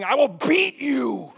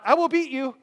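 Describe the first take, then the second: First: "beat" stretched out high and loud; passionate stress on BEAT. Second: Said in the usual way. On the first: Shown as a demonstration. Preacher showing how he threatened thieves, passionate drawn-out yell. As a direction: roar it slowly, leaning hard on "beat". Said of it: "I said it very passionately". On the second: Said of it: "and not".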